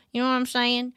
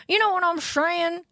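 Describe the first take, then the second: First: Said in the usual way. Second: Put-on high, squeaky cute girl voice; high cute anime girl. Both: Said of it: "pretend to be an anime girl".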